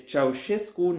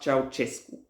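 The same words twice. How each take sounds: First: Ceausescu as chow-SHES-koo; slow, deliberate Ceausescu, middle consonant SH; correct Ceausescu pronunciation. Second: Ceausescu as chow-CHES-koo; slow Ceausescu, both consonants CH; mispronounced Ceausescu. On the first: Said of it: "not Ceausescu". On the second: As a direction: say Ceausescu with a hard CH in the middle. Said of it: "who spread the Ceausescu pronunciation". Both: Shown as a demonstration.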